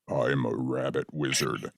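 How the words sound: It is said in a very low voice.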